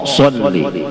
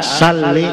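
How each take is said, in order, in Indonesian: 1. Diawali dengan s emfatik dan vokal gelap. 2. Diawali dengan s biasa dan vokal terang. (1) "Bacaannya S O, so" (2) "Lamun dibaca S A"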